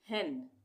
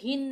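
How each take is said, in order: First: The vowel sounds like the e in bet. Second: The vowel sounds like the i in bit. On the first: The speaker calls it right. "हम बोलेंगे हेन" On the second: The speaker calls it wrong. "यहाँ पे हिन नहीं बोलेंगे इसको"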